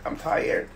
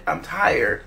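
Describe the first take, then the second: First: Breathy whisper of "I'm tired"; exhausted whisper, dropping the voice. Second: Said in the usual way. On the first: Acted. Repeating tired in live stream.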